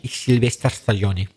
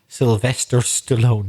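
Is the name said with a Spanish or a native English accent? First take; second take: Spanish; native English. First: It is said with a Spanish accent. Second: It is said with a native English accent. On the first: The speaker calls it wrong. "you want to do it with the accent?" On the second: The speaker calls it right. "I'll try and say it now in a normal accent"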